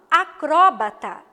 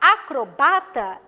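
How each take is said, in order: First: The stress is on the third-to-last syllable. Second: The stress is on the second-to-last syllable. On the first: "eu tenho uma palavra proparoxítona" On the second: "já não se trata mais de uma palavra proparoxítona"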